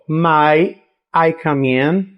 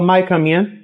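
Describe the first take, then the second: First: The words are said separately with pauses. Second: The words run together smoothly as one phrase.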